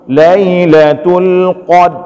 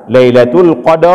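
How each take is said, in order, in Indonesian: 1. Bunyi r di akhir dihilangkan. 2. Setelah bunyi r di akhir, ada vokal penuh. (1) "Punya cuma ada pedang bah huruf dal, nggak akan keluar dia" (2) "jangan juga kita baca Lailatul Qadar, bukan ra"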